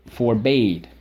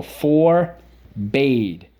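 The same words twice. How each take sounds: First: Said in the usual way. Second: "Forbade" split into a drawn-out FOR, then BADE; syllable by syllable. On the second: Shown as a demonstration. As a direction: slowly separate the two halves of "Forbade". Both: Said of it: "Let's go".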